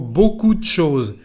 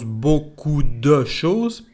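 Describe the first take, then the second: First: The vowel in de is dropped. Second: The vowel in de is fully pronounced. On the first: The speaker calls it right. "pero algo como" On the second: The speaker calls it wrong. "cuando hablamos no decimos"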